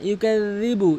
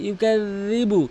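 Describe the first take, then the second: No difference in how they are said.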